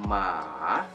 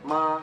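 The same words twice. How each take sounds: First: The pitch dips down and back up. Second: The pitch stays level and flat. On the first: It means horse. "agak kayak gelombang gitu ya" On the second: It means mother. "agak agak datar dia pengucapannya"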